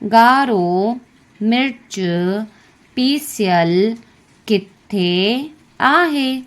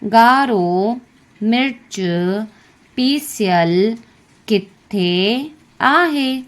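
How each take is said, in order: First: The word for where is said kithe. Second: The word for where is said kithe.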